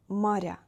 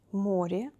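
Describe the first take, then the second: First: Моря with soft r, stressed final я, falling. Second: Море with soft r, stressed о, rising. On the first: Teacher repeats the plural, soft R. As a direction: say maRYA with a palatalized р. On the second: Teacher repeats the singular, soft R. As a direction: say MOrye with a palatalized р. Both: Shown as a demonstration. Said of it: "R is soft in both of forms".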